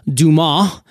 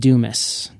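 First: The name is pronounced the French way. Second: The name is pronounced the American way. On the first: This is the family's original French-Canadian form. "growing up in a French-Canadian family, it was actually Dumas" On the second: The name was adapted to fit American speech. "we're going to Americanize this. Let's call it Dumas"

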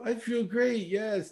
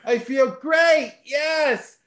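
First: It is said flatly, without conviction. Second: It is said with enthusiastic conviction.

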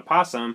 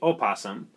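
First: The word starts with a 'p' sound. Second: The word starts with an 'o' vowel. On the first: The speaker calls it wrong. "we just decided to redact the O and we just call it opossum" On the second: The speaker calls it right. "that's not proper, and we're supposed to say opossum"

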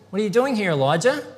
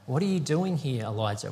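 First: It is asked in a judging tone. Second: It is asked in a caring tone.

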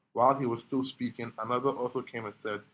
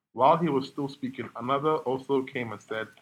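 Both takes have the same delivery.

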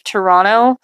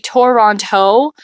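First: It is said casually, with sounds reduced. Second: Every syllable and letter is clearly enunciated. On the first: "you wouldn't say Toronto" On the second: "you would say Toronto. For example, you'd have to enunciate every single letter"

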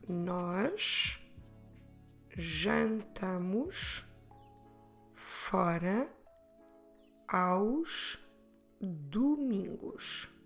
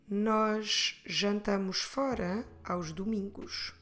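First: It is said at a normal pace. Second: It is said a bit faster.

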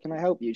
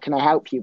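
First: It is said in a polite, friendly way. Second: It is said in a curt, suspicious way. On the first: A genuine offer of help. "it wasn't like she said it" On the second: A challenge to people not wanted there. "She didn't say it nicely"

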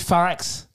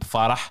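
First: The name ends with a harsh throaty x. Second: The name ends with a soft breathy h. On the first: The speaker calls it wrong. "He pronounced it with an X" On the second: The speaker calls it right. "it's a H"

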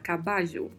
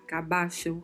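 First: The double L sounds like Portuguese j. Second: The double L sounds like ch. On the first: "um som de J" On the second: "um som de CH"

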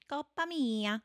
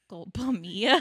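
First: It is said with an Italian-sounding accent. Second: It is said with a Spanish accent. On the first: The speaker calls it wrong. "I want to do, like, Italian" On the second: The speaker calls it right. "Say it in a Spanish accent"

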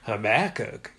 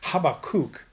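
First: The name is said with a Texas accent. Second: The name is said with a Hebrew pronunciation. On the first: The speaker calls it wrong. "it was kind of Habakkuk, you know, Texas" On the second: The speaker calls it right. "the Hebrew pronunciation of this word, its name, is Habakkuk"

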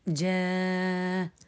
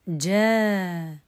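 First: The long vowel is held for six counts. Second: The long vowel is held for four counts. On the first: "الإشباع" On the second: "التوسط"

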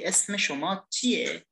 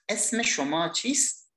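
First: The last word ends with an 'e' sound. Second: The last word ends with an 'st' sound. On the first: This is the casual, conversational way to ask. "kita ganti ke bahasa informal" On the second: This is the formal way to ask. "chist adalah bahasa formal"

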